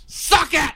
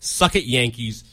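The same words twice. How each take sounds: First: High-pitched gloating yell; taunting shout. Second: Said in the usual way. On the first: Real, not acted. Fan taunting the Yankees after a sweep, gloating shout. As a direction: shout it at the beaten rivals.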